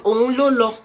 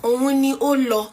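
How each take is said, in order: First: The word ni is reduced to an l. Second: The word ni is said in full. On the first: "We can contract it to Onlolo" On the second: "If you say Oni Olo"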